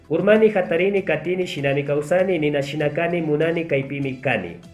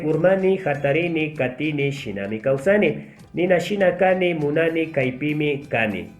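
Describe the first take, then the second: First: It is read at a very fast pace. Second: It is read at a medium pace. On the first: "la tercera voy a hacer lo más rápido posible" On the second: "una segunda vez voy a sí, aumentar la velocidad"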